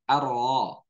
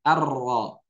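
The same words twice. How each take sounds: First: The R is said with a faint, hidden trill. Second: The R is said with a clear, audible trill. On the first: "Getarannya samar" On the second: "Ditampakkan getarannya"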